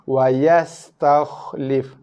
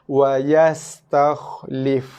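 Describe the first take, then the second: The two takes are said the same way.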